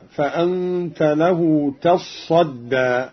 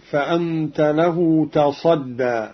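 First: Slow recitation with تصدى read "tassadda"; doubled sad. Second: Slow recitation with تصدى read "tasadda", sad not doubled; single light sad. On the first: Teacher shows Qalun's reading, doubled sad. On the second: Teacher quotes the verse before Qalun's variant, light sad. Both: Shown as a demonstration. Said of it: "بتشديد الصاد".

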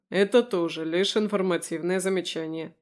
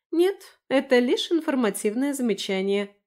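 First: Level, unraised retort; lightly voiced man's dry comeback; deadpan echo. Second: High, lively woman's retort; raised-pitch, pointed clarification; Lera's reply. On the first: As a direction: echo the remark back evenly. Roman echoes Lera's remark back. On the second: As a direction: answer pitched up, starting emphatically. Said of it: "ответила Лера". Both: A narrator's reading.

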